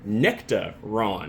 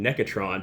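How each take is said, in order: First: The name is 'nectar' followed by 'Ron'. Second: The name ends with a 'tron' sound. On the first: The speaker calls it right. "but it is Nectaron" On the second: The speaker calls it wrong. "I was saying it wrong. I was saying Necatron"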